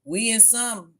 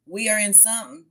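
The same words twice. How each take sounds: First: Said in the usual way. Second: "are" leaned on with a rising tune; stress on are. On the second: Shown as a demonstration. Repeating to viewers with "are" stressed. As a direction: lift and stress the word "are".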